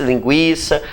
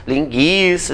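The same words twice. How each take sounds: First: Said in the usual way. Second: "Linguiça" dito "lin-guí-ça", with a silent u; u mudo. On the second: Shown as a demonstration. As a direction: say "Linguiça" with a hard g straight into i, no w sound. ("Linguiça" com o u mudo, soando "lin-ghi-ça") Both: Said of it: "ninguém vai dizer tranquilo".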